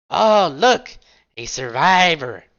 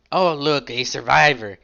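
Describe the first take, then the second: First: Mock cheer, much higher and louder on look; sarcastic. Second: Understated dry remark; a lightly sarcastic aside; mild sarcasm. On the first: Rook spotting the survivor, sarcastic mock cheer. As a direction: fake delight over a wounded enemy. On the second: Acted. Rook spotting the survivor, dry understated sarcasm. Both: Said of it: "Rook says sarcastically".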